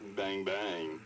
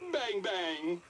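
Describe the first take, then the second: First: It is said in a flirty tone. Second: It is said in a happy tone.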